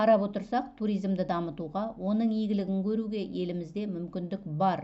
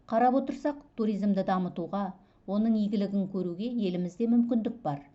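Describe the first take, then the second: No difference in how they are said.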